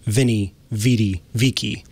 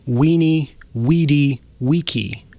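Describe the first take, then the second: First: Each word begins with a V sound. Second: Each word begins with a W sound. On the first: The speaker calls it wrong. "instead of Vinny, Vidi, Vicky" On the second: The speaker calls it right. "it's actually pronounced Weenie, Weedy, Weeky"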